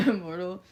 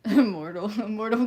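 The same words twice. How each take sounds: First: Laughing greeting. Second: Loud laughing call of the name; laughing greeting. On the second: Greeting chatter Immortal with a loud laugh. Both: Real, not acted.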